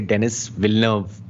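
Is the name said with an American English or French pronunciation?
American English. The name is said with an American English pronunciation. The speaker calls it wrong. "in American English they would kind of say"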